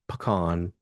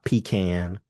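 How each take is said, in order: First: The first syllable does not sound like 'pee'. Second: The first syllable sounds like 'pee'. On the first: The speaker calls it right. "It's pronounced pecan" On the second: The speaker calls it wrong. "not pecan. ... no one wants to pee in a can"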